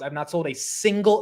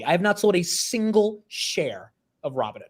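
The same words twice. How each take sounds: First: Said in the usual way. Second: Each word of "I have not sold a single share" stressed; over enunciating. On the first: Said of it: "let me say it again". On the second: Shown as a demonstration. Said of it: "Let me say it slowly".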